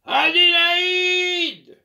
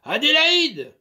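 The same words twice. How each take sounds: First: Very loud, high, drawn-out bellow; thunderous voice. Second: Loud call across the house; master's loud summons. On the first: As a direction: roar her name like thunder. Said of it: "d'une voix de tonnerre". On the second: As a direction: bellow her name to summon her. Master calls the maid. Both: Acted.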